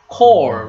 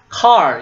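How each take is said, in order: First: The vowel is a rounded 'oh' sound. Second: The vowel is an open 'ah' sound. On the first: The speaker calls it right. "this one is core" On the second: The speaker calls it wrong. "It is not car"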